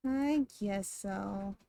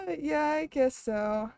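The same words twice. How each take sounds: First: Lower, softer and slowed right down; slow quiet echo. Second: Said in the usual way. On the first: Shown as a demonstration. Streamer echoing her own words in a slow quiet mutter. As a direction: mumble it back slowly to yourself. Repeats it to herself.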